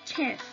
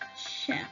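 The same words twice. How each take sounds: First: The word begins with a ch sound. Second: The word begins with an sh sound. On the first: The speaker calls it wrong. "hemos pronunciado mal porque hemos pronunciado chef" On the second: The speaker calls it right. "sino es chef"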